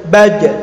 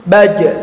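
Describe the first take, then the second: The two takes are said the same way.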